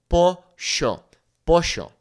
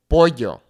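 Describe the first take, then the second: First: "pollo" with a "sh" sound, Argentine style; Argentine accent. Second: "pollo" with a Y sound; standard Spanish. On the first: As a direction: say "pollo" as "posho". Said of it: "they might say something like sh". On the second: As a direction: say "pollo" as "poyo". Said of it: "It makes that Y sound". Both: Shown as a demonstration.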